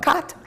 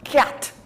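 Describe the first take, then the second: First: The word is said plainly and neutrally. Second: The word is said in a nasty, vulgar way. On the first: "not cat" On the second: "That's how you said it, nasty and vulgar"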